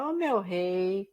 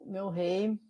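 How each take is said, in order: First: It is said with an exaggerated Bahian tune. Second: It is said in a plain, neutral tune.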